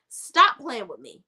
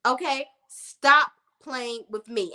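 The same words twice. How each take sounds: First: Said in the usual way. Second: "Stop playing with me" drawn out slowly, every word spaced; slow emphatic warning. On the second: Shown as a demonstration. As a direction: lay each word down slowly and firmly.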